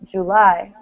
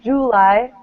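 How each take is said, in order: First: The stress is on the second syllable. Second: The stress is on the first syllable. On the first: The speaker calls it right. "This one's at the end" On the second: The speaker calls it wrong. "Not July"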